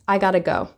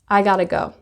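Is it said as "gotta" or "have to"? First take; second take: gotta; gotta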